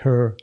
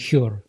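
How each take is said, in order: First: The h is a soft, light breath. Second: The h is a harsh, raspy throat sound. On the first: The speaker calls it right. "еще можно сказать her" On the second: The speaker calls it wrong. "Но не her. Не her. Никак, ни в коем случае нет"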